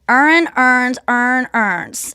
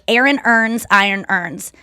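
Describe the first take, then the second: First: It is said in a Baltimore accent. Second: It is said in a general American accent.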